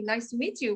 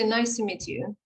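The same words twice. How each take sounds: First: It is said warmly, with cheerful enthusiasm. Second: It is said flatly, without any enthusiasm. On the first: The speaker is glad to meet the person. The speaker calls it right. "with a big smile" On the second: The speaker does not really want to meet the person. The speaker calls it wrong. "with sad face, no enthusiasm"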